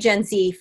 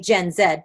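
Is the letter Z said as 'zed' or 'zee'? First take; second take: zee; zed. First: Z is said as 'zee', American style. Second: Z is said as 'zed', Canadian style.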